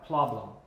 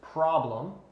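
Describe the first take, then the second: First: The R sound is replaced with an L sound. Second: The word is said with a clear R sound. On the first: The speaker calls it wrong. "They replace the R with an L pronunciation" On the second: The speaker calls it right. "the correct pronunciation is problem"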